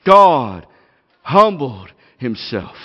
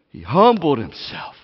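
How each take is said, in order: First: GOD loud, then humbled slow and weighty; hammer blow. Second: Said in the usual way. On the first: Shown as a demonstration. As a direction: lean hard on humbled. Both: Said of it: "a hammer blow of what this text is all about".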